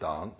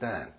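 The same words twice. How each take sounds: First: The word is said without an American accent. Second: The word is said with an American accent. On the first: "Instead of saying dance" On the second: "I shall try and give you American intonation"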